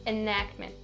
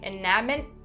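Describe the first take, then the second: First: The k and t sounds are soft but present. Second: The k and t sounds are fully dropped. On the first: The speaker calls it right. "I still have that k and t sound there, but it's just not as clear" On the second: The speaker calls it wrong. "don't completely drop them. Don't say enactment, not correct"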